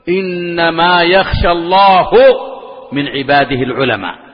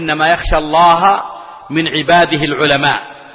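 First: The word for God ends in a u-vowel. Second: The word for God ends in an a-vowel. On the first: God honors the scholars. The speaker calls it wrong. "يأتي هذا المتطفل على العلم الطفيلي الجاهل السفيه فيقول" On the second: Scholars are the ones who fear God. The speaker calls it right. "هذا هو اللفظ الصحيح، إنما يخشى الله بنصب لفظ الجلالة"

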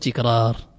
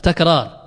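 First: The first syllable has a vowel other than a. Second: The first syllable has the vowel a. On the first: The speaker calls it wrong. "لا تقول تكرار" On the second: The speaker calls it right. "بفتح التاء"

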